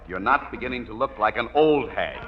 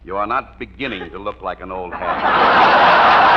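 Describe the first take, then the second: First: The word 'beginning' is not stressed. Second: The word 'beginning' is stressed.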